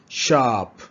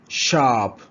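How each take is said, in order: Both takes have the same delivery.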